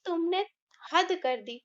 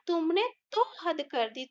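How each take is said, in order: First: Said in the usual way. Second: तो pushed out as the key word; stress on तो. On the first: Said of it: "हम ऐसे भी बोल सकते थे इस वाक्य को". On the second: Shown as a demonstration. Teacher stressing तो for the class. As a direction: lean on तो, keep the rest even. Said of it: "लेकिन हम बोल रहे हैं".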